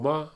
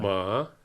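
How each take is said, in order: First: The syllable carries the neutral tone. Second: The syllable carries the third tone. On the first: It turns the sentence into a question. "ma in the end in neutral is a question" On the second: It means a horse. "Third tone is a horse"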